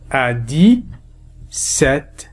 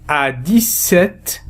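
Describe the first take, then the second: First: Dix-sept very slow, dis-set, no p; very slow model phrase. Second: Dix-sept said dis-set, the p silent; slow model phrase. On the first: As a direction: stretch dix-sept even more, p silent. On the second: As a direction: draw out dix-sept without the p. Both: Shown as a demonstration. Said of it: "P لا ينطق هنا".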